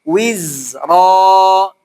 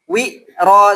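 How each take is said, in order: First: The z sound flows out continuously. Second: The z sound is pressed and cut off. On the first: The speaker calls it right. "suaranya terlepas bukan tertekan" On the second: The speaker calls it wrong. "seperti antum hanya menekan kayak wi ro"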